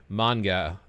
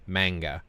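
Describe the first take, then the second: First: "manga" with an open ah, MAHN-ga; Japanese-style "manga", MAHN-ga; Japanese pronunciation. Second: "manga" with a flat a, MANG-ga; Americanized "manga", rhyming with "tanga" as MANG-ga; American pronunciation. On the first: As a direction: say "manga" slowly, first vowel as in father. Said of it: "they don't say manga". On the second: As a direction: say "manga" slowly, first vowel as in cat. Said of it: "they say manga". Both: Shown as a demonstration.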